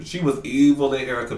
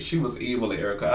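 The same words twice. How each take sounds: First: Louder, punching "evil"; first take, stronger; emphatic. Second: Said in the usual way. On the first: Real, not acted. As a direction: hit "evil" with relish.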